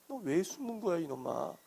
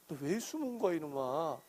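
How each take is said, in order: Both takes have the same delivery.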